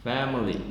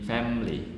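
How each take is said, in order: First: The word is said with three syllables. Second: The word is said with two syllables.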